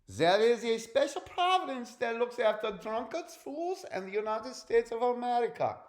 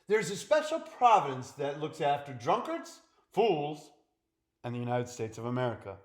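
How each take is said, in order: First: It is spoken in a put-on German accent. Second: It is spoken in the speaker's ordinary accent.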